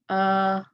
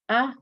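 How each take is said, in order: First: The vowel is held longer, two counts. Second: The vowel is held briefly, one count. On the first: "The long ones are a" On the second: "These are the short vowels"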